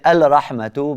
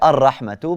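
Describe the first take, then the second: First: The L sound is clearly heard before the R. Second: The L merges into a doubled R sound. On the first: The speaker calls it wrong. "we don't say al-rahmatu" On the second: The speaker calls it right. "but we say ar-rahmatu"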